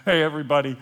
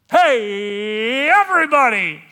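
First: Said in the usual way. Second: High, drawn-out full shout; yelling out. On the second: Acted. Unmasked man to the whole room, yelling out. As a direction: holler to a whole crowd, stretching the words. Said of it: "I yell out".

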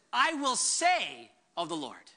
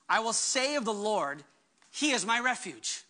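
First: "I" leaned on, slow and lower; stress on I. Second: Said in the usual way. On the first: Shown as a demonstration. Pastor pointing to David's resolve, slow stress on I. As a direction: weigh each word of "I will say", landing on "I". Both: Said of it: "I love that David says this".

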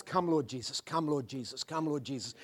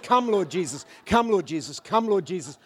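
First: Softer, hushed plea; hushed longing call; soft prayer. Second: Said in the usual way. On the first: Acted. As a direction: breathe it like a quiet prayer. Soft prayerful refrain in sermon.

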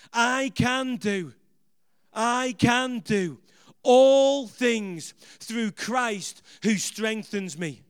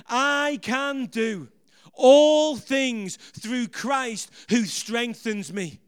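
First: Drawn-out chant of the verse, every word stretched; slow call-and-response. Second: Slow chant of the verse, swelling louder on all things; louder call-and-response. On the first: Preacher leading the congregation in the verse, slow chant. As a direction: lead the crowd through it word by word. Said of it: "Come on, say it with me". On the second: Preacher urging the congregation to repeat it, louder slow chant. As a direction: lead them again, pushing the volume up. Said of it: "Come on, say it again with me". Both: Shown as a demonstration.

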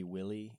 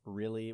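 First: "Willy", a W in place of the R. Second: Said in the usual way. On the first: Shown as a demonstration. Showing a little brother's speech impediment, R turned into W. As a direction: say "Willy" for really, with W for R. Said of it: "all his R's would be W's". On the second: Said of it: "really would be Willy".

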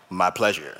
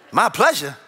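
First: Much lower, quieter smooth "My pleasure"; deep-voiced waiter. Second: Said in the usual way. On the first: Pastor mimics waiter answering his wife in a deep voice. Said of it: "a taller guy with a deep voice".

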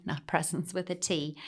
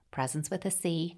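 First: A small laugh before "presence with a T", the letter T stressed; laughing contrast. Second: The letter C said clearly and stressed. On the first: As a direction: chuckle through "not presence with a T". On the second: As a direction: lean on the letter "C" in "presence with a C". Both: Shown as a demonstration.

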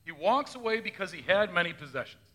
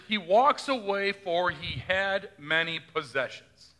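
First: Said in the usual way. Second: Slow, measured reading of scripture. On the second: Shown as a demonstration. Pastor quoting the Gospel to the congregation, slow and measured. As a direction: read it slowly like the text of Scripture. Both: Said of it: "but he do hear in Scripture".

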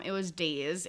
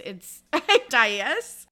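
First: "days" said like the word days; "days" as a single syllable, the old misreading; mispronounced. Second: "dais" in two syllables, dye-iss; "dais" said dye-iss, laughing at yourself; correct pronunciation. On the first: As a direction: rhymes with plays, one syllable. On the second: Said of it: "I thought that, um, it was days". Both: Shown as a demonstration.

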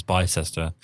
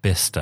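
First: Bicester read as spelt, "bye-SES-ter"; mispronounced Bicester. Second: Bicester cut to two syllables, "BIS-ter"; correct Bicester. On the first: Telling of their wedding mistake, mispronounced Bicester. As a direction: say Bicester in three syllables, "bye-sester". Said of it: "what we thought was Bicester". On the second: Guests correcting the visitors, Bicester as "BIS-ter". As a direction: say Bicester as "bister". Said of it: "They're like". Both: Shown as a demonstration.

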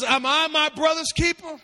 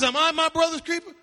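First: Indignant question, pitched up; Cain defiant retort. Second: Indignant rising question; Cain defiant retort. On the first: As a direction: throw the question back defiantly. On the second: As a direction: fling it back at God. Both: Acted. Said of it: "He says".

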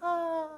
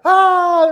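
First: High, soft imitated distant scream; a little scream from far off; tiny high-pitched "ah", held softly; teeny tiny scream. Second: High, very loud imitated scream; full-blast mock rider's scream; louder scream. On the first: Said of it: "these teeny tiny little screams in the background". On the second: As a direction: belt out a high "ah". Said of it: "the screams get louder".

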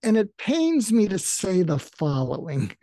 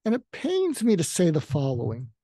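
First: A mildly pained wince on the words; wincing. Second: A touch of feisty edge. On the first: Coach demonstrates the wince confrontation with a mild pained tone. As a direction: say it as if it hurts a little. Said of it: "you wince, like, to say". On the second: Speaker says it feistily to an arrogant person. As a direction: deliver it with a bit of bite. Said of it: "I get feisty with people". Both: Shown as a demonstration.

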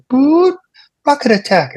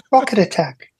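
First: High, calm British woman's alarm voice; British lady's announcement voice. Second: Pleasant British lady. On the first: Comedian imitating the base alarm, pleasant British voice. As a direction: imitate a pleasant recorded warning. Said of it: "this British lady's voice". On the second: Comedian mimicking the alarm's pleasant lady voice. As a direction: sweetly imitate the recorded alarm. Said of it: "really pleasant voice". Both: Retold or imitated.

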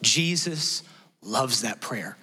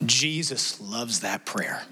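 First: Slow, lingering, lower assurance; tender repeat. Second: Tender. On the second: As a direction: say it gently and slowly, letting it land. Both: Shown as a demonstration.

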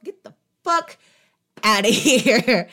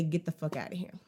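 First: Mock kiss-off. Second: Much lower and softer; hesitant kiss-off. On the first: Telling the leech to leave. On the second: Retold or imitated. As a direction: say it under your breath, unsure you dare. It's not that easy to just say.

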